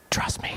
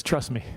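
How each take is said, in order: First: Whispered. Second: Said in the usual way. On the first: Shown as a demonstration.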